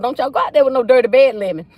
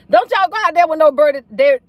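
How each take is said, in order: First: Said in the usual way. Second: Laughing, faster and higher; giggling through Don't y'all go out there. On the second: Real, not acted. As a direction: repeat the warning while cracking up. Repeat of warning with laugh.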